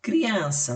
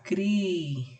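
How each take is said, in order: First: Said in the usual way. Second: "cri-an-sa" split into three drawn-out syllables. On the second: Shown as a demonstration. Teacher showing pupils how to separate syllables, "cri-an-sa" syllable by syllable. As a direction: say "cri-an-sa" with a gap after each syllable. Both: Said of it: "Você vai separar as sílabas".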